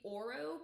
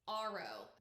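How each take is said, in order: First: The name begins with an 'oh' vowel. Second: The name begins with an 'ah' vowel. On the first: This matches the spelling and the Spanish word for gold. "but it's O R O. So it could be Oro" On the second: This is how the audiobook narrator said it. "At least that's how the narrator pronounced it"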